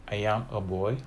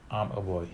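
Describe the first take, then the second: First: "I am" en deux syllabes séparées; "I am a boy" sans contraction, bien détaché; full form. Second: "I'm" en une syllabe; "I'm a boy" avec la contraction; contracted. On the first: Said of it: "non contraction". (forme non contractée "I am") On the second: (forme contractée "I'm") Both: Shown as a demonstration.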